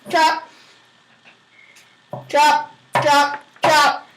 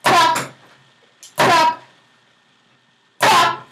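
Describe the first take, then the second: No difference in how they are said.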